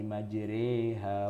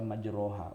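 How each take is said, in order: First: The vowel after r leans toward 'e'. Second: The vowel after r is an open 'o'. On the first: The speaker calls it right. "cuma itulah ayat satu-satunya yang kita tuh membacanya imalah" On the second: The speaker calls it wrong. "Kita tidak membaca majroha"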